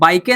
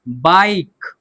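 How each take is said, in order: First: The word ends with an extra vowel sound. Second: The word ends on the consonant, no vowel. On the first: The speaker calls it wrong. "बाइके नहीं ना पढ़ रहे हैं" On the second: The speaker calls it right. "तो ई को हम silent रखते हैं"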